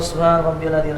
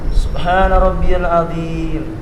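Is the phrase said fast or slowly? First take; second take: fast; slowly. First: The phrase is said quickly and hurriedly. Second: The phrase is said slowly and calmly. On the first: The speaker calls it wrong. "Ini yang salah" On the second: The speaker calls it right.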